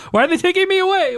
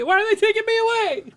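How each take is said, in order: First: High, fast panicky plea; mock panic. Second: Mock wail. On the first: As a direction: play it as hammed-up terror. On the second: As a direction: let it trail off in fake despair. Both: Acts being taken away.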